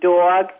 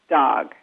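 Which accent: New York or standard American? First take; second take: New York; standard American. First: The vowel is an or sound, New York style. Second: The vowel is an ah sound, standard American.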